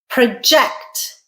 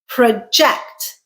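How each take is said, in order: First: The stress is on the second syllable. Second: The same.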